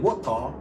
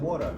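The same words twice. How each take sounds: First: It is said in a London British accent. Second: It is said in an American accent. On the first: "You said water" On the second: "and I said water"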